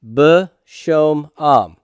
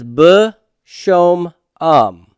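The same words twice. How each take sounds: First: Slower, deliberate repeat of B shom am. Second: Slow, careful sounding out of b shom am. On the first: Teacher repeating the Hebrew word for students, very slowly. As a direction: say B shom am slowly, each syllable apart. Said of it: "this is b shom am". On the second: Teacher sounding out a Hebrew form for students, slowly. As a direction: spell out b shom am syllable by syllable. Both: Shown as a demonstration.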